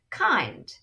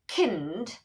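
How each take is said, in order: First: The vowel is said with its long sound. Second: The vowel is said with its short sound. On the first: The speaker calls it right. "try to change the vowel to its long sound" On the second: The speaker calls it wrong. "you can see that it doesn't make sense"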